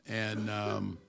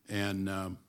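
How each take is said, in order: The two takes are said the same way.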